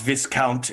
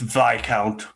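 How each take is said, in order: First: The S sound in the word is pronounced. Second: The S sound in the word is silent. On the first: The speaker calls it wrong. "Really not proper to pronounce the S. It's not" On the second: The speaker calls it right.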